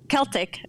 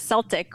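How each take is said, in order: First: The word begins with a hard K sound. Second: The word begins without a hard K sound. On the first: This is the form scholars use. "as what scholars call it" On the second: This is the form sports fans use. "what sports fans call it"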